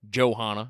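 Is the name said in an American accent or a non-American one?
American. The name is said in an American accent.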